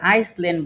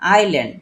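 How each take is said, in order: First: An s sound is said before the l. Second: No s sound is said before the l. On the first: The speaker calls it wrong. "এটাকে আইসল্যান্ড বলি। কিন্তু এটা কিন্তু আমাদের ভুল।" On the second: The speaker calls it right. "এসটা silent হয়ে যাবে। It's আইল্যান্ড।"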